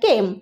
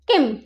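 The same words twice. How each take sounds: First: The vowel is drawn out and long. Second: The vowel is clipped and short. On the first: The speaker calls it right. "এটা একটু দীর্ঘ সময় ধরে উচ্চারিত হচ্ছে" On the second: The speaker calls it wrong. "আমরা কিন্তু কেম এরকম ভাবে উচ্চারণ করতে পারি না"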